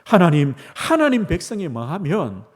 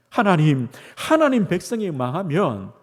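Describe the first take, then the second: No difference in how they are said.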